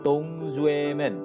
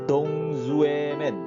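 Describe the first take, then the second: The two takes are said the same way.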